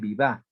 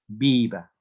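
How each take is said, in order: First: The stress is on the last syllable. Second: The stress is on the first syllable. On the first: The speaker calls it wrong. "no se dice viva" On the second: The speaker calls it right. "la acentuación está antes de la última sílaba"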